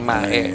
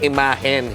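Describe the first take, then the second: First: The word ends without an n sound. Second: The word ends with an n sound. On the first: The speaker calls it wrong. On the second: The speaker calls it right. "ang sinabi niya"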